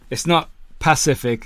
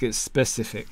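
First: "Pacific" said for specific, with a stressed puh- start; mock "Pacific" instead of specific; wrong word. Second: Said in the usual way. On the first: Shown as a demonstration. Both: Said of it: "I love it when people say that".

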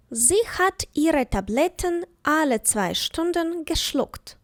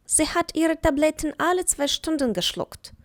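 First: Slow, careful dictation of the sentence; slow example. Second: Said in the usual way. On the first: Shown as a demonstration. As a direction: read it slowly for learners to follow. (повільно, старанно, по словах)

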